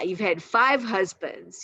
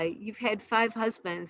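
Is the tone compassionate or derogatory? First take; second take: derogatory; compassionate. First: The tone is scornful and derogatory. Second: The tone is gentle and compassionate. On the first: The speaker is putting her down. The speaker calls it wrong. "in this kind of derogatory tone" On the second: The speaker feels sympathy for her. The speaker calls it right. "in a very compassionate way"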